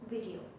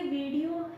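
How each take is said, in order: First: The final o sound is lighter. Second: The final o sound is full. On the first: The speaker calls it right. "थोड़ा सा इसको ओ का sound हल्का सा इसको कम करेंगे" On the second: The speaker calls it wrong. "ये वीडियो है"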